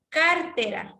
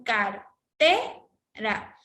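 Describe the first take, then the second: First: CAR-tera, stressed on the first syllable; wrong stress on CAR. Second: Car-TE-ra, stretched with a lifted middle; correct stress on TE. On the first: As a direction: punch the first syllable of Cartera and let tera drop. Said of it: "mayor fuerza de voz a car". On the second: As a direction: split cartera and push the voice up on TE. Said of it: "pronunciamos cartera". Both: Shown as a demonstration.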